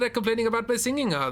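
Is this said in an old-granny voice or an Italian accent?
Italian accent. It is said with an Italian accent. "in Italiano"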